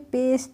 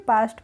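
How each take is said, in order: First: The vowel sounds like 'ay'. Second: The vowel sounds like 'ah'. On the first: The speaker calls it wrong. "पेस्ट नहीं पढ़ेंगे" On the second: The speaker calls it right. "पास्ट पढ़ लेंगे"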